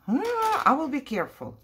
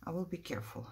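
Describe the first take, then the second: First: Higher and louder, alarmed promise; startled exclaim. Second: Much softer, murmured reassurance; quiet to self. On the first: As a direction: blurt it out after a near slip. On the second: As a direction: say it under your breath, steadying yourself. Repeats it softly to self. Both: Real, not acted.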